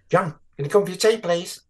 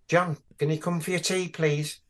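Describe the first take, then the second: First: It is said faster, sounding like Mary. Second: It is said at a slower, normal pace.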